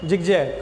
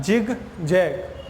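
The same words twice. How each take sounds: First: Said in the usual way. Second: 'जिग जैग' in two slow, separate halves; very slow teacher's 'जिग ... जैग'; sounded out slowly. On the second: Shown as a demonstration. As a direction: break 'जिग जैग' apart with a pause between. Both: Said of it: "ज से pronunciation हो रहा है".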